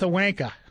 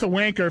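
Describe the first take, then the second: First: It is said in a Boston accent. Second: It is said in a non-Boston American accent. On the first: This is how the speaker himself says it. "For me it's a wanker" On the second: This is how the other person would say it. "I think for you it's a wanker"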